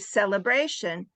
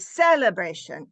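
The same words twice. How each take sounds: First: The stress falls on the natural syllable. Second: The stress falls on an unexpected syllable. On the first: A fluent English speaker says it. The speaker calls it right. "I might say celebration" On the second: Someone who does not know English says it. The speaker calls it wrong. "someone who doesn't know English, they they might say celebration"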